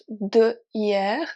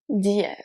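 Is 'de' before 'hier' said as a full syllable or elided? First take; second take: full; elided. First: De is said as a full separate syllable. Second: The d joins directly onto hier. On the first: The speaker calls it wrong. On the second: The speaker calls it right.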